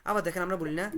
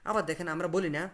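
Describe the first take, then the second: The two takes are said the same way.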